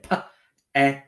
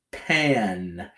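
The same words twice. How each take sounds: First: "Pa-an" broken into single sounds with pauses; slow sounding out. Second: Said in the usual way. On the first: Shown as a demonstration. Teacher repeating for pupils, sounds held apart. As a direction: sound out "Pa-an" bit by bit.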